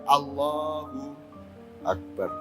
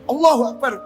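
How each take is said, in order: First: It is said softly and inwardly, reflectively. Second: It is said forcefully, like a challenge. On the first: The speaker is in inner awe of God. The speaker calls it right. "Jadi Allahu Akbar itu adalah kesadaran ke dalam dirimu" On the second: The speaker is picking a fight. The speaker calls it wrong. "Ini nantang gelut aja Bang"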